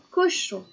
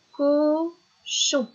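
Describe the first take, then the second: First: Said in the usual way. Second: "Cochon" with high, held "co", pause, "chon"; higher, stretched "co", then separate "chon"; split into syllables. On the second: Shown as a demonstration. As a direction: count the two syllables of "Cochon". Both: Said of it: "Ça fait deux".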